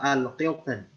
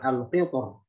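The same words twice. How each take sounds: First: The r is pronounced thin and light. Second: The r is pronounced heavy and full.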